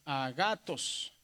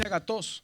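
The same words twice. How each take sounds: First: "agatos" lento, más grave, alargando GA; acento en GA. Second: "agatos" con el golpe en TOS; acento en la última. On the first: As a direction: carga la voz en GA de "agatos" y baja en TOS. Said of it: "este va a aumentar". ("agatos" silabeado con la penúltima marcada) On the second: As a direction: di "agatos" como aguda, cargando TOS. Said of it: "¿por qué no dice agatos?". ("agatos" acentuado en la última sílaba) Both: Shown as a demonstration.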